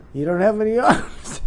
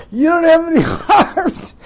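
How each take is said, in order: First: Said in the usual way. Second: Higher, louder, laughing through the words; incredulous laughing outburst; laughing disbelief. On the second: Real, not acted. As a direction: repeat it cracking up in disbelief. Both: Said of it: "I'm just cracking up".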